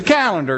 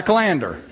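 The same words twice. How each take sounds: First: Calendar said CAL-en-der; correct pronunciation. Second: Calendar said kuh-LAN-der; rejected pronunciation. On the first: Insisting on home usage, calendar as CAL-en-der. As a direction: stress CAL at the start of calendar. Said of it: "it's not a calendar". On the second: Dismissing the boss's way, calendar as kuh-LAN-der. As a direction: stress LAN in calendar, first syllable swallowed. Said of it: "And it's a calendar". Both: Shown as a demonstration.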